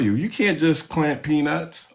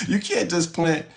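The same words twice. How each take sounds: First: Said in the usual way. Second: Laughing. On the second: Real, not acted. Laughs while repeating the point.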